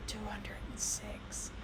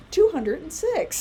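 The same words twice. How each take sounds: First: Slow, soft whispered aside; mother whispering the answer. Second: Put-on slow, higher, louder proud child; a boy shouting the answer to the nurse. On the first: Retold or imitated. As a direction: whisper the answer into his ear. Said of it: "I lean over and I go". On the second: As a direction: announce it triumphantly. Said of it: "And then he goes".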